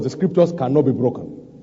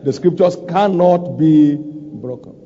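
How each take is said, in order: First: Said in the usual way. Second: CANNOT spaced out and emphasized; stress on CANNOT. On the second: Real, not acted. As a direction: repeat it with deliberate weight on "cannot". Repeats after asking for amen.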